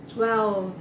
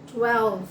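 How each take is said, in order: Both takes have the same delivery.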